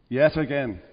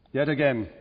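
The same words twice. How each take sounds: First: "Yet" hit first, falling soft; stress on yet. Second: "again" leaned on, falling soft; weight the word "again", low and quiet; stress on again. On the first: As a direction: punch the word "Yet", then let it drop. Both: Shown as a demonstration.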